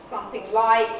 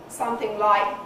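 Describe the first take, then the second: The two takes are said the same way.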